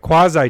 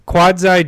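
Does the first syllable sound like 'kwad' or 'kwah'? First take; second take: kwah; kwad. First: The first syllable sounds like 'kwah' without 'd'. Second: The first syllable sounds like 'quad'. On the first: The speaker calls it right. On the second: The speaker calls it wrong.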